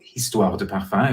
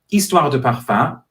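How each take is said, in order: First: The first H sound is pronounced. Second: The first H sound is silent. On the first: The speaker calls it wrong. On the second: The speaker calls it right.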